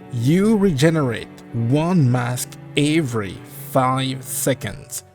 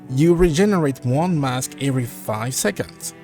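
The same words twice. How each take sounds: First: It is said slowly. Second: It is said at normal speed.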